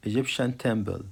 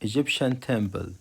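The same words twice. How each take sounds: The two takes are said the same way.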